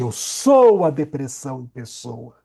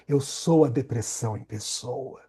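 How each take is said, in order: First: It is said with strong intensity. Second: It is said weakly, without intensity.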